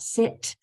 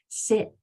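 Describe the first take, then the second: First: The final T is released with a puff. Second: The final T is stopped without release. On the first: The speaker calls it wrong. "it's not sit" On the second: The speaker calls it right. "it's going to turn into a stop sound where you won't be able to spit it out"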